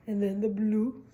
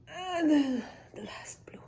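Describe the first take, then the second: First: Said in the usual way. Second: Hushed whisper on the last cap. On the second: Shown as a demonstration. Teacher whispering the last blue cap to children. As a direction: whisper it like a careful secret.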